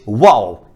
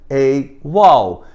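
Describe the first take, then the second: First: It is fast, with the article nearly swallowed. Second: It is slow, with the article clearly pronounced. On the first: "na velocidade normal" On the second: "vagarosamente, daí sim o artigo aparece"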